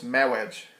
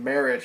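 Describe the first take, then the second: First: The middle sound is a W instead of R. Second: The middle sound is a normal R. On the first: "his R's are W's, so instead of saying marriage, he says marriage" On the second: "instead of saying marriage"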